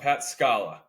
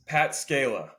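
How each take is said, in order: First: Scala said as SKAH-la; corrected Scala. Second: Scala said as SKAY-la; long "ay" in the first syllable of Scala; mispronounced Scala. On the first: Host repeating the name after co-host's correction, Scala as SKAH-la. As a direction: open "ah" in the first syllable of Scala. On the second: Host reading out a texted name, Scala mispronounced as SKAY-la. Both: Real, not acted.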